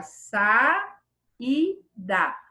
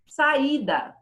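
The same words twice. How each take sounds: First: Saída slowly split sa, i, da; syllable by syllable. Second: Said in the usual way. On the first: Shown as a demonstration. Teacher showing vowels that separate, syllable by syllable. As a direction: hold each syllable of saída apart with pauses. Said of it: "Saída também fica".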